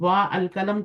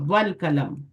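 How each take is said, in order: First: 'Wa' and 'al' are said as separate syllables. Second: The vowel drops and 'wa' runs into 'l'. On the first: The speaker calls it wrong. "तो नहीं पढ़ेंगे ना" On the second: The speaker calls it right. "अपनी हरकत ड्रॉप कर दे, वो वसली होगा"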